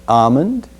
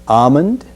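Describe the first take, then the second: Both takes have the same delivery.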